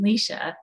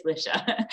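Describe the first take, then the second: First: "Leisha" as LEE-sha; correct name. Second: "Lisha" as LISH-a; hated mispronunciation. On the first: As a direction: say "Leisha" with a long ee. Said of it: "a pretty simple name to say". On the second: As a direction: say "Lisha" with a short, lax i. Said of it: "pronunciation that I hate the most". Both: Shown as a demonstration.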